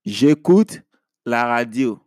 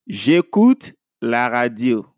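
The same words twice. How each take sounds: The two takes are said the same way.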